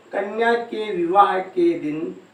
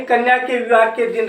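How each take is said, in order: First: कन्या के विवाह के दिन slowly, word by word; measured कन्या के विवाह के दिन for note-takers; slow dictation. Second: Said in the usual way. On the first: Shown as a demonstration. Repeats phrase slowly for dictation.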